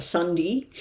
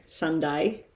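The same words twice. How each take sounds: First: Sunday ending in "dee"; short "dee" ending. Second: Sunday with a full "day" at the end. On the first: Showing viewers the form she never uses, Sunday said as sun-dee. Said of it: "I never say Sunday". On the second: Showing viewers her British-tinged speech, Sunday ending in a full "day". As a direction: say Sunday as sun-day, clear final vowel. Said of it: "or Sunday. I never say Sunday". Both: Shown as a demonstration.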